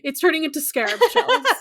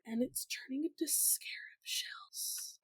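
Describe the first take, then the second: First: It is said in a normal voice. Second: It is said in a whisper.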